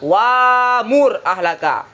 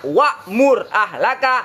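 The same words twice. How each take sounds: First: The hamzah is replaced by a long vowel. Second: The hamzah is pronounced as a glottal stop. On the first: This is the lightened reading with ibdal. "Hamzah digantikan dengan alif" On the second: This is the original reading. "Dibaca dasarnya"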